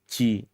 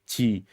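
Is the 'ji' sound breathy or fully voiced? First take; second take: breathy; breathy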